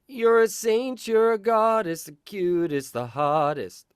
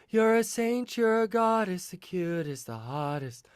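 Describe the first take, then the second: First: The voice is pressed, with compression. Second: The voice is breathy, without compression.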